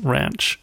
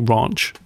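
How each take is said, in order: First: It is said in an American accent. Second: It is said in a British accent.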